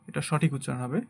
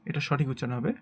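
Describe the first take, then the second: The two takes are said the same way.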